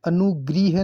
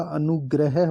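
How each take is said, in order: First: अनुग्रह said "anugriha"; wrong pronunciation. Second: अनुग्रह said "anugrah"; correct pronunciation. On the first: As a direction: put "gri" in अनुग्रह. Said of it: "अनुग्रह नहीं होता". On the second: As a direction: say अनुग्रह with "gra", no i. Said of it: "अनुग्रह होता है". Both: Shown as a demonstration.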